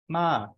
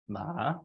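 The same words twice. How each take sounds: First: The pitch starts very high and falls. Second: The pitch starts low and rises. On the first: "a falling tone that starts at about five and falls" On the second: "A rising tone that starts uh, near the low tone and rises"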